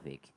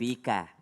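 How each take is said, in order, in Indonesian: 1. Kata ini diakhiri dengan konsonan k. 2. Kata ini diakhiri dengan bunyi vokal. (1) "Tapi dibacanya barakallahu fik, biar keren aja"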